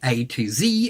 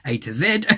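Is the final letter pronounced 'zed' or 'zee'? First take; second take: zee; zed. First: Z is said the American way, as 'zee'. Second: Z is said the Australian way, as 'zed'.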